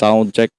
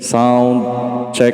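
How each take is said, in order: First: The voice has boosted treble and sounds sharp. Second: The voice has heavy echoing reverb on it. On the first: "Pag tinaas natin, tatalim yung boses natin" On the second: "Pag naka full volume, yung reverb"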